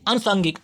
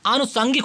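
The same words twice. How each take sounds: First: आनुषांगिक begun with a short "anu"; wrong form shown. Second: आनुषांगिक begun with a long "aa"; correct form shown. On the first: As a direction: keep the first vowel of आनुषांगिक short. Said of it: "अनु नहीं होता है". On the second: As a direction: lengthen the first vowel of आनुषांगिक. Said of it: "आनुषांगिक होता है". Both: Shown as a demonstration.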